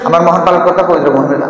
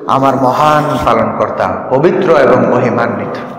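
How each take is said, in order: First: It is rushed out quickly without feeling. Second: It is said warmly and unhurriedly, with feeling.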